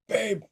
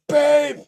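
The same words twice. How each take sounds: First: It is said quietly. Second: It is said loudly.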